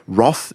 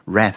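First: The word is said in the current British way. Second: The word is said in the American way. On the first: This way of saying it is preferred today. "Roth is the current preferred one" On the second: This is how it is said in America. "Rath is the American one"

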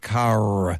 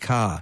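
First: It has an American accent with sounded R. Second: It has a British accent with silent R.

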